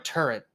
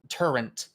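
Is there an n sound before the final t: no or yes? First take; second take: no; yes. First: It ends in a plain t sound. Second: It ends with an n before the t. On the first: The speaker calls it right. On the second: The speaker calls it wrong.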